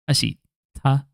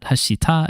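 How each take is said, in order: First: It is said with a short pause before 'ta'. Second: It is said smoothly with no pause before 'ta'. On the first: The speaker calls it right. "I think there's just a pause there" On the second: The speaker calls it wrong. "it's not hashita"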